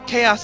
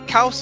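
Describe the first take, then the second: First: The word is pronounced the English way. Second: The word is pronounced the Greek way. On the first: This is the English form of the word. "Chaos is English" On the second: This is the Greek form of the word. "Kaos is Greek"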